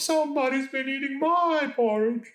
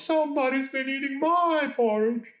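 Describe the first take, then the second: First: It is said in a moaning, plaintive voice. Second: It is said in a moaning, plaintive voice.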